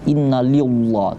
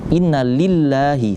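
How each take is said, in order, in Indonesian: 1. Huruf l pada Allah dibaca tebal. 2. Huruf l pada Allah dibaca tipis. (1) "tidak dibaca inna lillah, tidak" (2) "Kapan dibaca tarqiq? Ketika ... berbaris kasrah"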